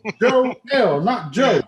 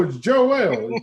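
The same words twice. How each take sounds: First: "Joe L" split into two hard syllables, higher and louder; spelled-out name. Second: Said in the usual way. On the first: Retold or imitated. Insisting to a stranger his name is "Joe L", emphatic. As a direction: pull "Joe L" apart and hit both parts.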